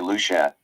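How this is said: It is said the Caribbean way. "In the Caribbean, you'd say"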